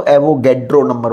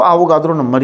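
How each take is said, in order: First: एवोगैड्रो with "ae" vowels and hard English d; anglicized pronunciation. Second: आवोगाद्रो said "AA-vo-GAA-dro", long open vowels; speaker's own pronunciation. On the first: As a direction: say एवोगैड्रो as "AE-vo-GAED-ro". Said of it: "कई लोग इसको एवोगैड्रो number बोलते हैं". (एवोगैड्रो में "ऐ" और "ड" वाला अंग्रेज़ी उच्चारण) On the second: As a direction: keep "aa" in both first and third syllables of आवोगाद्रो. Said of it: "मैं इसको आवोगाद्रो नंबर ही बोलता हूँ". (आवोगाद्रो में खुले "आ" वाला उच्चारण) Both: Shown as a demonstration.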